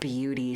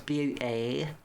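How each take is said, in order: First: It is said with an American accent. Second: It is said with a British accent. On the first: "in an American accent" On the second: "she says beauty"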